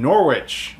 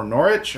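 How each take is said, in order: First: Norwich with the W sounded; "Norwich" spoken just as it is written; Norwich as spelt. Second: Norwich said as NORR-itch; "Norwich" pronounced NORR-itch, no W sound; Norwich with silent W. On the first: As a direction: say "Norwich" as NOR-witch, W pronounced. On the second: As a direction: drop the W in "Norwich". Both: Shown as a demonstration. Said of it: "my filthy American accent on that".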